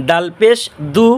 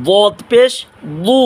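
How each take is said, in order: First: দু with a light, thin d; slow, drawn-out দু, keep the d light; correct thin dal. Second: বু as a heavy, emphatic du; thick dad. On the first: Teacher modelling correct letters for viewers, slow thin দু. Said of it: "নির্দিষ্ট স্থান থেকে". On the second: Teacher contrasting dad with dal, thick heavy বু. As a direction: make the dad in বু full and thick. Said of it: "মোটা". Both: Shown as a demonstration.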